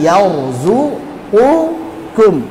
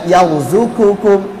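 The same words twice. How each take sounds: First: A deep q is followed by a light k. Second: Both consonants are light, breathy k sounds. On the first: The speaker calls it right. "tapi yarzuqukum" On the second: The speaker calls it wrong. "Jangan semuanya jadi kaf"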